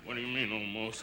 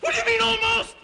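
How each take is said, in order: First: Very low, hushed repeat; forced calm. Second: High, loud, indignant question; alarmed outburst. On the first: Policyholder repeating his question to the agent, forced calm. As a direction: drop it far down and soft, reining yourself in. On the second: Policyholder hearing the copy is only almost exact, alarmed outburst. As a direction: yelp it, pitch shooting up. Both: Acted.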